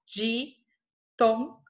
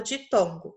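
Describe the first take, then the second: First: "ditongo" spoken as di-ton-go, each syllable opened clearly. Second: Said in the usual way. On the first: Shown as a demonstration. Teacher shows pupils the three syllables, syllabified. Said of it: "precisei movimentar minha boca três vezes". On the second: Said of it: "eu vou falar ditongo".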